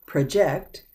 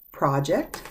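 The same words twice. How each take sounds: First: "project" as pruh-JECT, the verb; verb pronunciation. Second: "project" as PRAH-ject, the noun; noun pronunciation. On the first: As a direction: stress the second syllable of "project". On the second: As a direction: open "ah" in a stressed first syllable of "project". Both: Shown as a demonstration. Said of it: "but it's pronounced differently".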